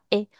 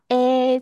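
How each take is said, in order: First: The vowel is quick, small and short. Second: The vowel is louder, wider and longer. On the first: "就是短短的发A 这样子的感觉" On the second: "我用两指宽发A，这样听起来比较大声，比较宽"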